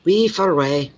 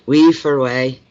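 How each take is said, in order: First: High "We for away" in a Glasgow lilt; higher Scottish mimicry. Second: Scottish phrase. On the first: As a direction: toss it off like Ian. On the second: Retold or imitated. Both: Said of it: "almost like a different language".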